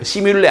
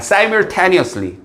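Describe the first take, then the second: First: The word begins with the sounds 'simulle'. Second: The word does not begin with 'simulle'. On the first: The speaker calls it wrong. "시뮬레 아닙니다" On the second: The speaker calls it right. "발음 조심하세요"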